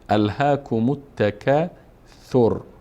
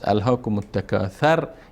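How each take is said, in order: First: The 'th' sound is followed by a 'u' vowel. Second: The 'th' sound is followed by a non-'u' vowel. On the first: The speaker calls it right. "ث مضموم هست، ضمه داره" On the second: The speaker calls it wrong. "پس الهاکم التکاثر یا تکاثر خوانده نمیشه"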